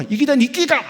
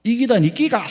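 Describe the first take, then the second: First: Higher, louder Gyeongsang dialect shout; louder Gyeongsang retort. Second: Loud blunt Gyeongsang snap; Gyeongsang dialect retort. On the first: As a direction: throw it back even louder in Gyeongsang dialect. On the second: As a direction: bark it out in thick Gyeongsang dialect. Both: Retold or imitated. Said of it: "경상도 사람이 뭐라 그랬다고요?".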